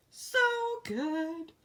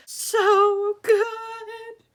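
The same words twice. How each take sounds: First: Said in the usual way. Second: High, loud, sung "So good!"; sung gush. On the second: Real, not acted. Reader gushing over her book, singing it high. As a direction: sing it out, delighted.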